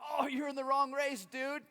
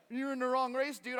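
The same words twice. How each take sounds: First: Loud, high, laughing tease; amused old runner. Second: Loud, high mock repeat; mocking echo. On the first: Retold or imitated. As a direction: break the news with a laugh. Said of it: "and he goes". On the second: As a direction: throw his words back at him. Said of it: "And I was like".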